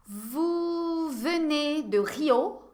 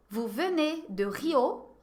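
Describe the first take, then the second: First: "Vous venez de Rio?" crawling slowly, rising on "venez"; very slow model question. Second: Said in the usual way. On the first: Shown as a demonstration. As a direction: stretch every syllable of the question. (pergunta muito lenta, subindo em "venez") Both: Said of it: "Je vais vous poser quelques questions".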